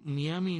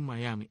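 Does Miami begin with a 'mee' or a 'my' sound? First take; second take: mee; my. First: It begins with a 'mee' sound, read Spanish style. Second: It begins with a 'my' sound, like Mayaimi. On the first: The speaker calls it wrong. "Miami es tan fácil de leer en español como Miami, los cubanos decimos Miami. Sin embargo, Miami no es correcto" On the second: The speaker calls it right. "Lo correcto es decir Miami"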